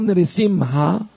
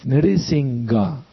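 First: The middle consonant is an h sound. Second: The middle consonant is a g sound. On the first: The speaker calls it right. "it's an H" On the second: The speaker calls it wrong. "it's not a G"

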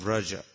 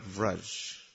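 First: The word ends with a final vowel sound. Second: The word ends on the final consonant. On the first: The speaker calls it right. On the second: The speaker calls it wrong.

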